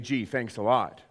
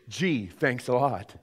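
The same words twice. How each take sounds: First: It is said in a sarcastic, unimpressed tone. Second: It is said in a sincerely grateful tone. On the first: The gift is disappointingly poor. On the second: The gift is truly appreciated.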